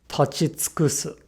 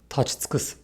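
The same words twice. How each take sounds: First: It is said slowly with a clearly voiced u. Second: It is said fast with the u nearly devoiced. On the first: "If we say this verb slowly, the u is quite audible" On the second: "the faster we say this word, the more the u loses its voicing"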